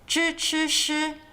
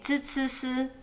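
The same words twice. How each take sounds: First: The initials are strongly retroflex, with the tongue curled. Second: The initials are flat, with the tongue not curled. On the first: "Some people like to really emphasize the tongue rolling" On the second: "Others have more flat tongues"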